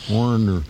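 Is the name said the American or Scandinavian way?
American. The name is said the American way. "I have to say it like an American"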